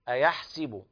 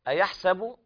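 First: The vowel after the s sound is i. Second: The vowel after the s sound is a. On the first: Another accepted reading with kasra on the sin. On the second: One accepted reading with fatha on the sin.

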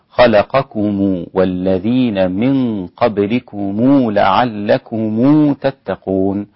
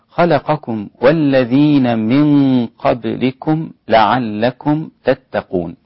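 First: The plural m endings carry a lengthened u vowel. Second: The plural m endings are closed, with no vowel.

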